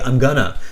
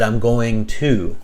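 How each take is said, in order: First: The words are contracted into one short form. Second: The words are said fully and separately. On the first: The speaker calls it wrong. "gonna is somewhat of a contraction" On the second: The speaker calls it right. "I said I'm going to"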